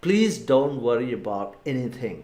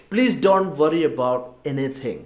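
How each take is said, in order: First: Slow repeat. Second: Very slow, every word spaced out; slow model phrase. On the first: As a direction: repeat it slowly and gently for learners. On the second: Teacher modelling a mother's advice, very slow. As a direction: say it slowly for learners to copy. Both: Shown as a demonstration. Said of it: "ഒന്നുകൂടെ പറഞ്ഞു നോക്കാം".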